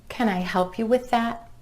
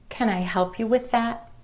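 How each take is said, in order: No difference in how they are said.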